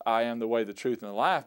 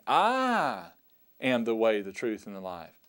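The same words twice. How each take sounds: First: Said in the usual way. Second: "I" alone and exclusive, the rest falling away; stress on I. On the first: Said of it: "is not just". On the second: Shown as a demonstration. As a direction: lift the word "I" way up and hold it. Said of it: "but he's saying".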